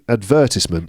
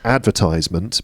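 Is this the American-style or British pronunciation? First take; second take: British; American-style. First: It is pronounced the British English way. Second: It is pronounced like the verb advertise. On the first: "advertisement in British English" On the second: "it would make sense for the noun to be advertisement"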